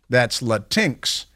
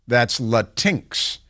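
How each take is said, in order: No difference in how they are said.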